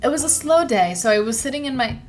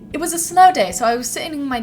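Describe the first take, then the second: First: It is read in an ordinary American accent. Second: It is read in a put-on British accent.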